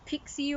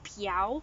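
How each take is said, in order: First: The word ends with a 'see' sound. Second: The word ends with an 'ow' sound. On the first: The speaker calls it wrong. "as some some people probably pronounce it" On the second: The speaker calls it right. "It's actually pronounced piao"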